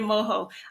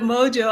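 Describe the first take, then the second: First: The word is said with Spanish-style sounds. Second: The word is said with English sounds. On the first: The speaker calls it wrong. "I've been in Mexico too long. ... I'm saying Mojo" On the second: The speaker calls it right. "Instead of Mojo"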